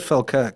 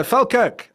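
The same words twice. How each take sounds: First: Said in the usual way. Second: Falkirk high and loud, mock-Scottish; put-on Scottish accent. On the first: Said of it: "And I said Falkirk". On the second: Faking a hometown for the girlfriend, high loud Scottish. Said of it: "I put on this Scottish accent".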